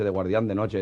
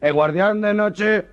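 First: Said in the usual way. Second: "guardián de noche" stammered high and slow, "noche" stretched; stuttered. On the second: Acted. Stutterer repeating the job title to the boss, stammering high. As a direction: stall hard on "noche".

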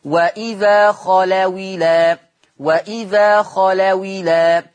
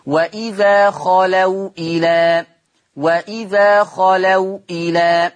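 First: وإذا خلوا إلى with the kasra moved onto the waw, خلوِلى, hamza dropped; slow recitation joining خلوا to إلى with a kasra on the waw; recited with naql. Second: وإذا خلوا إلى with the waw of خلوا held silent before إلى; slow Quranic recitation keeping the sukun on the waw of خلوا; recited without naql. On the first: Teacher shows students the naql reading, waw taking the hamza's kasra. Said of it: "لو أنا قرأتها بالنقل أقول إيه". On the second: Teacher recites وإذا خلوا إلى to students, keeping the waw silent. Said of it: "لاحظ معي النطق بالمثال التالي".

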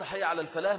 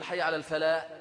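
First: الفلاح with its final ح clearly sounded; correct ending. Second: الفلاح cut off without its final ح; mock wrong ending. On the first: Shown as a demonstration. Teacher shows students the proper way to end the call. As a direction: finish الفلاح on a distinct breathy ح. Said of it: "لازم يظهرها". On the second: Teacher imitates callers who swallow the final letter. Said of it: "كثير من الإخوة لما بيجي يأذن بيقول".

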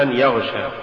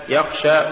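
First: "يغشى" with voiced gh for kh; kha voiced to ghayn. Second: Said in the usual way. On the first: Shown as a demonstration. Teacher showing an error, "يغشى" with ghayn replacing kha. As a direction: voice the kh, making "يغشى". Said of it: "تقرأ لحنا". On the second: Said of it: "استبدال الخاء بالغين".

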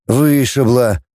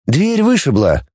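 First: ВЫШИБЛА settled with a falling tune; falling confirmation. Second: Slow charge, ВЫШИБЛА held up; drawn-out ВЫШИБЛА, pitched slightly up; leading charge. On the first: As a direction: confirm ВЫШИБЛА as established fact. Echo confirming the charge. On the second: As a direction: put the accusation as if asking, slowly. Prosecutor states charge, then echoes it. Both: A narrator's reading.

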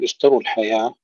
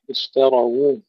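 First: اشتروا الحياة as ishtaru-l-hayah, waw lost; wrong merged waw. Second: اشتروا as ishtara-wu, open ra then wu; damma on waw. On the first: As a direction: run the ra straight into "ru" in اشتروا. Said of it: "لا نقول". (اشتروا الحياة بضم الراء خطأً) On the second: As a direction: sound a clear "awu" ending in اشتروا. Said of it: "ننتبه إلى ضم الواو". (اشتروا بفتح الراء وضم الواو) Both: Shown as a demonstration.

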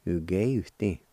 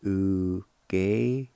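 First: Said in the usual way. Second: "Ugeitin" drawn out very slowly, syllable by syllable; slow demo. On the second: Shown as a demonstration. Teacher showing the second way of "Ugeitin", slowly. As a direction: stretch "Ugeitin" right out. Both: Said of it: "Or like this".

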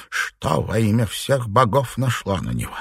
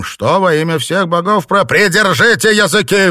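First: Said in the usual way. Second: Loud, high furious roar; roaring rage. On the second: A narrator's reading. Master silencing the chattering servants, roaring. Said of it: "взревел Филипп Чень".

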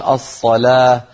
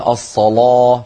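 First: "الصلاة" with thin l and fronted ā; light lām. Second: "الصلاة" with dark, thick l and backed ā; heavy lām. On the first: Teacher giving most tribes' form, "الصلاة" with thinned lām. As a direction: keep the l of "الصلاة" light and clear. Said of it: "فيرققون اللام". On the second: Teacher giving some tribes' form, "الصلاة" with heavy lām. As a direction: thicken the l of "الصلاة" toward ṣalō. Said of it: "فيفخمون اللام". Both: Shown as a demonstration.

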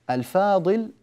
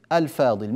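First: الفاضل lifted high with a rising end; stressed higher take. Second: Said in the usual way. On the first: Shown as a demonstration. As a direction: raise الفاضل like a question. (الفاضل بنبرة مرتفعة صاعدة) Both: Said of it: "لاحظوا كلمة الفاضل هنا".

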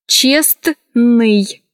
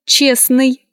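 First: Честный split up, the Т clearly sounded; spelling pronunciation. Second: Честный said as чесный; silent T. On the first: Teacher showing how честный is written, spelled-out reading. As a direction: say честный as spelled, with a full СТН. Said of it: "Пишется". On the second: Teacher showing how честный is pronounced, T dropped. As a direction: drop the Т in честный, smoothly joined. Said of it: "произносится". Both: Shown as a demonstration.

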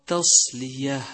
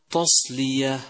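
First: تصلية with a thin, light ت; correct light taa. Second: تصلية opening on ت thickened like ط; wrong heavy taa. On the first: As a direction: keep ت light before ص in تصلية. (ترقيق التاء في تصلية) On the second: (تفخيم التاء خطأً في تصلية) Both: Shown as a demonstration. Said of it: "والصواب".

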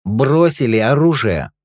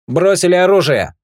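First: Slow, firm, stress on Бросили; slow repeated order. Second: High, loud order to drop weapons; shouted command. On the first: Rick repeats his order to the thugs, slow and firm. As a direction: hammer Бросили home, slowly. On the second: Partner behind the trio orders them to disarm, shouting. Rick demands weapons dropped. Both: Acted.

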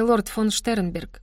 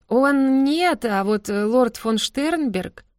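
First: Said in the usual way. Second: Slow, stretched insinuating drawl; drawn out. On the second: A narrator's reading. Inora hints at the lord, drawling slowly. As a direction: linger on every syllable of лорд фон Штернберг. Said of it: "протянула Инора Линден".

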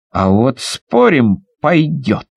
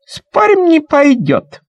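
First: Low, slow, firm reply; boy's steady bet. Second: Put-on high, loud child's voice; girl's shrill bet. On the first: Acted. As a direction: answer the bet calmly. Boy bets back. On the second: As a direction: bet it like a cocky little girl. Girl bets it won't.

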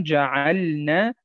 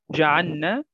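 First: جعلنا slowly with a clear silent ل before the ن; careful جعلنا, every letter distinct; correct pronunciation. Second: جعلنا with the lam merged into the nun, said جعنّا; sloppy جعلنا swallowing the ل; wrong pronunciation. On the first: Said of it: "لابد من الاتيان باللام". (نطق صحيح لجعلنا بإظهار اللام الساكنة) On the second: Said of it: "لا، لا، لا نقول". (نطق خاطئ لجعلنا بإدغام اللام في النون) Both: Shown as a demonstration.

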